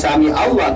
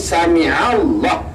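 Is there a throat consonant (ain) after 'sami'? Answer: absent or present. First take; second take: absent; present. First: It is said without the throat consonant ain. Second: It is said with the throat consonant ain. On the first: The speaker calls it wrong. "bukan sami Allah" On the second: The speaker calls it right. "sami Allah dengan ain"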